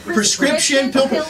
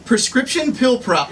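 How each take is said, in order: First: Slow again, rising on "pill" and stalling at "pro-"; retry "prescription pill pro-" slowly, tripping on pro; slow fumbling retry, ending on a rise; stumbling tongue twister. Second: Slow, tripping on "prescription pill pro-"; slowly fumbling "prescription pill pro-"; stumbling tongue twister. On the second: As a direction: labour over "prescription pill pro-" and stall on pro. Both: Shown as a demonstration. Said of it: "try saying that fast three times".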